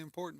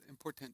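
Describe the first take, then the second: First: The T in the middle is barely pronounced. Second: The T in the middle is clearly pronounced. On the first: "I say important" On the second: "she says important. She likes to enunciate"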